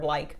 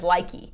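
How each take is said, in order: First: The word ends on the k sound. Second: The word ends with an added ee vowel. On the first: The speaker calls it right. "the word like" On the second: The speaker calls it wrong. "their impulse is to say E when there's an E at the end"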